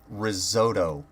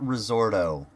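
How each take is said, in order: First: The middle sounds like "sot" with no r. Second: The middle sounds like "sort" with an r. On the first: The speaker calls it right. "it's risotto" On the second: The speaker calls it wrong. "not risorto"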